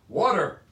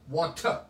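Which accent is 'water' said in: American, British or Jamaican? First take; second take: American; British. First: It is said in an American accent. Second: It is said in a British accent. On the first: "It's not a T, it's a D" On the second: "The British people say water"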